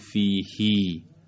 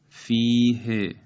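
First: The final vowel is lengthened. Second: The final vowel is short. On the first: The speaker calls it wrong. "نمیگیم فیهی" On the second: The speaker calls it right. "بدون اشباع تلفظ میشه، یعنی با صدای کوتاه"

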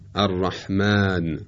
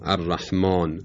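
First: The long vowel is light and thin. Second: The long vowel is heavy and thick. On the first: The speaker calls it right. "یا در کلمه رحمان" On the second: The speaker calls it wrong. "و نه مالک یا الرحمن"

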